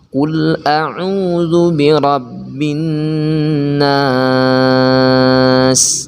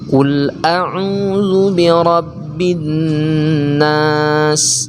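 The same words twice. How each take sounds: First: The long vowel is held long. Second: The long vowel is held short.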